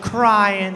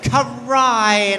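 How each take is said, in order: First: The word is pronounced in a plain modern style. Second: The word is pronounced in an old 1920s style. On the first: "as opposed to crying" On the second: "In the 20s, you say crying"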